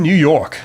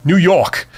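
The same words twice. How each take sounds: First: Said in the usual way. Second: "New York" in a thick New York accent. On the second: Shown as a demonstration. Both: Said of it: "What do you think of my New York accent?".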